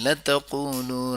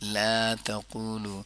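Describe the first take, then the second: First: The first vowel is short, run into the verb. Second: The first vowel is long, set apart from the verb. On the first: The speaker calls it wrong. "लतक़ूलू राइना नहीं पढ़ेंगे" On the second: The speaker calls it right.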